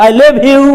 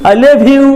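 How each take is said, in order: No difference in how they are said.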